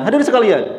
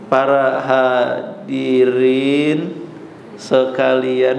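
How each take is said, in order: First: It is said very fast, like lightning. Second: It is said very slowly and drawn out.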